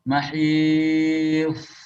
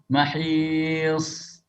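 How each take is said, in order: First: The consonant is a thick, emphatic t sound. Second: The consonant is a soft th sound. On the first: The speaker calls it wrong. "Ta, tapi ditebalkan. Keliru" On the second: The speaker calls it right. "As-sahih was-shawab"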